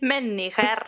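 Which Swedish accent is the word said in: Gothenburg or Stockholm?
Stockholm. The word is said in a Stockholm accent.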